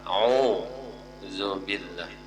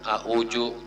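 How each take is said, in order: First: The middle consonant is a 'z/dz' sound. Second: The middle consonant is a 'j' sound. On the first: The speaker calls it right. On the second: The speaker calls it wrong.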